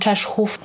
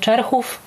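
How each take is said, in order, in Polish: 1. Środkowy zbitek wymawia się jako 'szch'. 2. Środkowy zbitek wymawia się jako 'rch'. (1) "a wszyscy mówią na nią" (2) "Administracyjnie dana wieś nazywa się"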